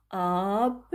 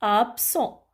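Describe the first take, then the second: First: "Absent" drawn out as "Ab", long pause, "sent"; syllable-by-syllable dictation. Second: Said in the usual way. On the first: Shown as a demonstration. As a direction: split "Absent" into two slow syllables for writing. (« Absent » dicté lentement, syllabe par syllabe) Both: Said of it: "je l'écris".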